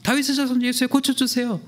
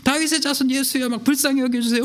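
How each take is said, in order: First: High pleading cry; crying out again. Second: High desperate plea; crying out. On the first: Blind men crying to Jesus again, high plea. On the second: Blind men shouting to Jesus for mercy, high plea. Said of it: "울룰룰룰 막 하면서 시선을 끌었다는". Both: Retold or imitated.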